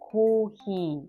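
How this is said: It is said with Japanese pronunciation. "in Japanese it's kohi"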